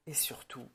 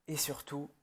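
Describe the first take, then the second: No difference in how they are said.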